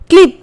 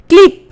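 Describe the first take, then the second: Both takes have the same delivery.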